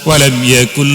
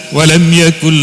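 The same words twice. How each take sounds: Both takes have the same delivery.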